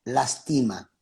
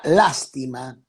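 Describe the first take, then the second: First: "lastima" with the stress on TI, las-TI-ma; lastima, stressed middle. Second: "lástima" repeated slowly with the stress on LÁS; lástima, stressed first. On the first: Pastor finishing the contrast for listeners, "lastima" stressed on TI. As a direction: say "lastima" with a falling end, the stress on TI. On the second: Pastor repeating the lesson for listeners, "lástima" stressed on LÁS. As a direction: give "lástima" a heavy first syllable, LÁS-ti-ma. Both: Shown as a demonstration. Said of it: "con acento".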